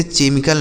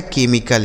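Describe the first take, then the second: First: "केमिकल" said with ch, che-mi-kal; "केमिकल" misread as CHE-mi-kal; wrong pronunciation. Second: "केमिकल" said with k, ke-mi-kal; "केमिकल" as KE-mi-kal, hard k first; correct pronunciation. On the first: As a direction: say "केमिकल" with a ch at the start. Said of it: "इसे केमिकल नहीं पढ़ा जाता है". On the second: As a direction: say "केमिकल" with CH sounded as k. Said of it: "सीएच का उच्चारण यहाँ पे क हो जाएगा". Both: Shown as a demonstration.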